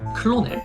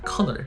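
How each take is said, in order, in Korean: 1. 'clonel'처럼 들려요, 철자를 하나씩 읽은 소리예요. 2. 'kernel'처럼 들려요, 두 음절이에요. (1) "이거 클로넬 아니면은 뭐 커러넬이라고 읽을 건데" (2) "커널입니다"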